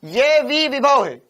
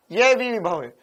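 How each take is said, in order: First: ये वी विभव है said slow and louder, hammering each word; stressed correction. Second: Said in the usual way. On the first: Shown as a demonstration. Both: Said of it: "देख".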